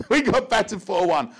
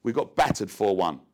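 First: Bursting out laughing, much higher and louder. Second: Said in the usual way. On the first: Real, not acted. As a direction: laugh through the score at your own disaster. Repeats the score as punchline.

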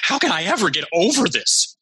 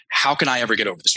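First: Emotionalized and higher, a despairing plea; emotional. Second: Calm, collected reading of the question; cool and calm. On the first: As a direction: sound stuck and upset. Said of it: "Most of the time, it's emotionalized". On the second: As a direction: ask it coolly, no drama. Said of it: "very rarely do they say it in, in a cool, calm, collected way". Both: Shown as a demonstration.

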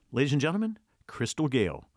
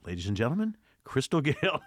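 First: Big stage announcer welcome; hammed-up emcee intro. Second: Stage emcee announcing the headliner; mock formal emcee; announcer intro. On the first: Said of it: "That's all I had to do". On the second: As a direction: present the star to the crowd. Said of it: "walked on stage and said". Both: Shown as a demonstration.

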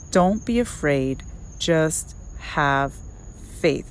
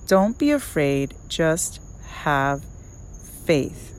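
First: Said in the usual way. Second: "Don't be afraid, just have faith" with a pause before each of "just", "have" and "faith"; slow with pauses. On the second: Shown as a demonstration. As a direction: lay every word of "Don't be afraid, just have faith" down separately, slowly. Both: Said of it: "Let me repeat that".

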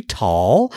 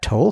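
First: "tall" with an open aw vowel; name said as tall. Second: "Toll" with a long O, rhyming with roll; name said as Toll. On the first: Host offering another guess at a name, "tall" said with aw. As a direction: say "tall" with aw, as in hall. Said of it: "Could be tall". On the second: Host guessing a listener's name, "Toll" said with a long O. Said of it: "I'm assuming you pronounce that Toll". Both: Shown as a demonstration.

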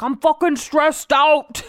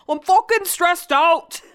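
First: Slow, mock English accent, pitched up; [name] in English accent. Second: Hammed-up English accent, higher and slow, "fokin" leaned on; [name] in English accent. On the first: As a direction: do a bad English accent of a stressed partner. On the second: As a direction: push the bad English accent further. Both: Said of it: "It's the worst accent ever".

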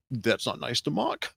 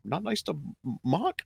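First: Soft, slow gentle scolding; Victor Timely's mild reproach. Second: Higher, softer prissy scolding; Victor Timely's reproach again. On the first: Victor Timely gently scolding Miss Minutes, slow and soft. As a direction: chide her softly and slowly. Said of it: "and he goes". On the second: Fan repeating Victor's line in a higher, hushed mock voice. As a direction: lift the voice up and hush it, mock offended. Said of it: "He took it personally". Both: Retold or imitated.

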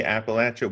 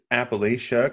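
First: "Appalachia" with a short a, appa-LATCH-a; rejected pronunciation. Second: "Appalachia" with a long a, appa-LAY-sha; preferred pronunciation. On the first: Co-host shows what locals don't say, rejected pronunciation of "Appalachia" as appa-LATCH-a. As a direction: say "Appalachia" with LATCH in the third syllable. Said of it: "'cause we don't say Appalachia". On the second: Co-host settles the pronunciation debate, preferred pronunciation of "Appalachia" as appa-LAY-sha. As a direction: say "Appalachia" with LAY in the third syllable. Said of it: "I think it's Appalachia".

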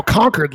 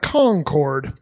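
First: Concord said like "conquered"; correcting pronunciation. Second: Concord read as spelled, con-CORD with a full "cord"; mistaken outsider pronunciation. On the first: Shown as a demonstration. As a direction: Concord with a reduced second syllable, as a correction. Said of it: "I'm like, "No, Concord". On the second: Retold or imitated. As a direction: Concord with both syllables fully sounded. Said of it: "Most people see it, they're like".

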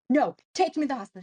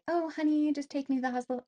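First: Loud, rapid mock yell; retold yelling. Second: High, honeyed pretend plea; politely ask, pitched up, as the ideal wife would; mock-sweet request. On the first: Wife demanding help from her husband, retold yelling. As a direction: re-enact a frantic demand, fast and raised. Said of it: "I was screaming and yelling at my husband". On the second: Wife imagining asking her husband nicely, mock-sweet. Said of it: "I would love to be like".

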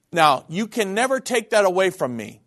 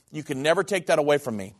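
First: Firm preacher's insistence; emphatic declaration. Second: Calm, firm echo. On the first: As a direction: drive "never" home with conviction. First, emphatic statement. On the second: Quieter restatement. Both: Real, not acted.

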